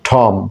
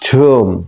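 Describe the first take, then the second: First: The vowel sounds like 'o'. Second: The vowel sounds like 'oo'. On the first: The speaker calls it wrong. "এতদিন আমরা ভুল বলছি" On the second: The speaker calls it right. "ওটা একটু ইউ এর মতন হয়ে যাবে"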